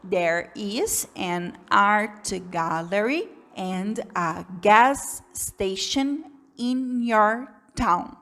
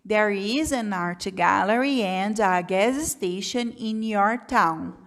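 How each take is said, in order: First: It is read slowly with pauses between words. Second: It is read at a moderate, steadier speed. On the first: The reader is a beginner. "Se você é um iniciante, você vai ler essa frase mais ou menos assim" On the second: The reader is somewhat more advanced. "se você está um pouquinho mais avançado, você consegue ler assim"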